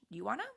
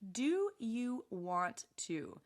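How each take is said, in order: First: The words are shortened and run together. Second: Every word is said fully and separately. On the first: "Real spoken English" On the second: "Textbook English"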